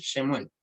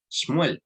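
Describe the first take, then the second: First: Shemuel with an added e after sh; wrong pronunciation. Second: Shmuel with no vowel between sh and m; correct pronunciation. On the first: Teacher contrasts the mistaken reading: Shemuel with extra e. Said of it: "y no Sh". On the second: Teacher shows students the right reading: Shmuel, no vowel after sh. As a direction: say Shmuel as one tight cluster, sh straight into m. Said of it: "se pronuncia Shmuel y no Sh". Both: Shown as a demonstration.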